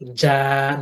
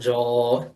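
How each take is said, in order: First: The vowel is light and open. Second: The vowel is heavy and rounded. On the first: The speaker calls it right. "Again, ja, not jaw" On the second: The speaker calls it wrong. "not jaw"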